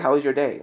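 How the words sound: It is said in a cautious, timid tone. "Like very cautiously, afraid of what could happen next"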